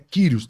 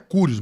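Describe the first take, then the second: First: The first vowel sounds like 'ee'. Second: The first vowel sounds like 'oo'. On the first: The speaker calls it right. "mas é Quírios. Tem o Y lá que tem som de I" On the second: The speaker calls it wrong. "Alguns falam que é Cúrios"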